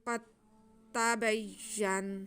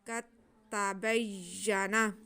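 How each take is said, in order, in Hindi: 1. आखिरी शब्द व्यंजन पर खत्म होता है। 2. आखिरी शब्द स्वर पर खत्म होता है।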